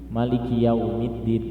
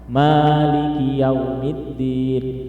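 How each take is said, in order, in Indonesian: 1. Huruf vokal pertama pada maliki pendek. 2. Huruf vokal pertama pada maliki panjang. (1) "Boleh dibaca pendek" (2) "Boleh dibaca panjang, manya, dua harokat"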